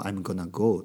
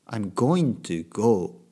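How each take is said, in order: First: The words are run together and reduced. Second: Each word is pronounced fully and separately. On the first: "I'm gonna go とかよく聞くんですね" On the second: "I'm going to go でもいいけど"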